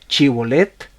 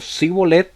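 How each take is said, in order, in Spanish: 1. La palabra empieza con un sonido sh. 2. La palabra empieza con un sonido s. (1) "lo pronunciaba eh, con una H, con un acento más fuerte" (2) "significaba que lo había pronunciado mal"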